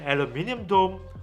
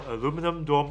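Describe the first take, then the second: First: It uses the British pronunciation. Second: It uses the American pronunciation.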